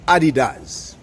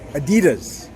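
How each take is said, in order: First: It is said the original German way. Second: It is said the usual American way. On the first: The speaker calls it right. "the pronunciation is" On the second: The speaker calls it wrong. "Here in the States, they typically pronounce it"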